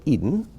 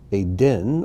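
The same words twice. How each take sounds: First: Eden as EE-dun, stress up front; English pronunciation. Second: Eden as ay-DEN, stress on the end; Hebrew pronunciation. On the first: Teacher gives the familiar name after it, English pronunciation. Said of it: "or as we say". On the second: Teacher reads the name list aloud, Hebrew pronunciation. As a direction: say Eden with ay first, clear final den. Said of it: "these are the Hebrew pronunciations". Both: Shown as a demonstration.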